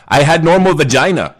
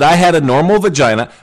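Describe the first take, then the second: First: Mock Russian accent, dropping the article; a rough Russian accent, playfully. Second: Mock Russian accent, a bit higher; a fake Russian accent, half-hearted. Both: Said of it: "I don't know if that's a Russian accent".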